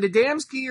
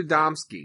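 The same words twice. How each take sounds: First: Adamski with a flat A as in "dam"; "a-DAM-ski". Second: Adamski with an open "ah" as in "dom"; "a-DOM-ski". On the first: Co-host asking how the name goes, Adamski rhyming its middle with "ham". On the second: Co-host asking how the name goes, Adamski with middle like "Tom". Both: Shown as a demonstration. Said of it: "I'm saying Adamski".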